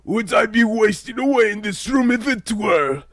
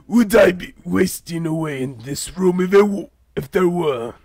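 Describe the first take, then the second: First: It is said in the intended character voice. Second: It is said in a Vegeta-like voice.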